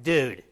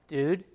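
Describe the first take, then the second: First: It is said in a stern, scolding tone. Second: It is said in a nervous, frightened tone. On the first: The listener is in trouble. "like I say it to my kids and they're in trouble" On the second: Something dangerous might be nearby. "you're walking into a dark room and there might be a serial killer"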